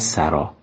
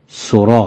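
First: The first vowel is an a sound. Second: The first vowel is an o sound. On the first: It is the word meaning house. The speaker calls it wrong. "و نه سرا" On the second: It is the stem of the verb meaning to compose. The speaker calls it right. "سرودن ستاکش سرا هست"

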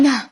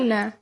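First: The word is said abruptly and firmly. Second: The word is said gently and softly. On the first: The refusal may offend the other person. The speaker calls it wrong. "اگه قاطع بگیم طبیعتا به طرف ممکنه بر بخوره. مثلا یهو یکی میگه نه" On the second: The refusal is polite and less hurtful. The speaker calls it right.

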